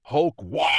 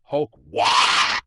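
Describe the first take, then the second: First: A loud, higher battle roar; mighty war cry roar. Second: Very loud, rising battle roar; the god of the orcs roaring to his people; huge roar. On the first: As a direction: bellow the war cry at the sky. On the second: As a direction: throw the war cry out to the whole world. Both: A narrator's reading. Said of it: "and he roars".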